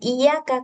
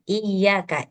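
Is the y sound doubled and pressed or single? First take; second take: single; doubled. First: The y sound is short and not pressed. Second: The y sound is pressed and held longer. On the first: The speaker calls it wrong. "Jangan iya kak" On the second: The speaker calls it right.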